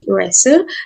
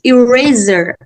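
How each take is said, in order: First: The middle consonant is a hissing s sound. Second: The middle consonant is a buzzing z sound. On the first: This is how the speaker says it. "and I say eraser" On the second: This is how the other person says it. "You say you eraser"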